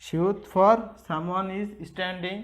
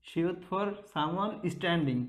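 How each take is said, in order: First: সিউত for someone is standing, slow and a bit louder; slow mnemonic. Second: সিউত for someone standing, spoken slowly; slow mnemonic. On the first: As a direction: stretch each word of সিউত for someone is standing. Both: Shown as a demonstration.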